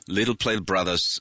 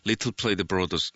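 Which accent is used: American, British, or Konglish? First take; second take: American; British. First: It is said in an American English accent. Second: It is said in a British English accent. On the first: "아메리칸 스타일로" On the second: "영국 스타일로"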